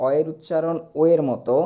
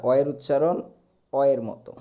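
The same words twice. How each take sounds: First: "ও" said as a rounded, closed o. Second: "অ" said as an open aw; open aw sound. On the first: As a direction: round the mouth on "ও" and press it out firmly. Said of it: "ও উচ্চারণ করতে গেলে মুখটা একটু গোল হবে". ("ও" ধ্বনি মুখ গোল করে সংবৃত উচ্চারণ) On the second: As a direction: drop the jaw slightly for an open "অ". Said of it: "চোয়ালটা একটু ফাঁকা হবে". ("অ" ধ্বনি চোয়াল ফাঁকা করে বিবৃত উচ্চারণ) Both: Shown as a demonstration.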